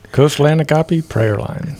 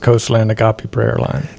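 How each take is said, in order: First: It is said with strong, expressive feeling. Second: It is said plainly, without special feeling.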